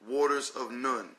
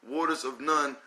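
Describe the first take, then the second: The two takes are said the same way.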